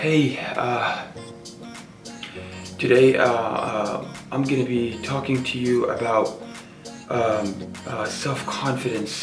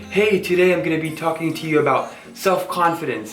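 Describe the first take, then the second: First: It is said in a weak, hesitant voice. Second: It is said in a strong, confident voice.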